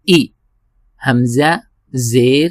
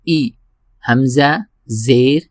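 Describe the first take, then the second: No difference in how they are said.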